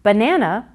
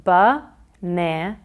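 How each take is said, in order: First: Said in the usual way. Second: Ba-na-na in three separated beats; ba-na-na pulled apart slowly; distinct syllables. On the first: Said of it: "is made up of". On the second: Shown as a demonstration. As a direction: pause after each syllable of ba-na-na. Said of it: "into distinct syllables".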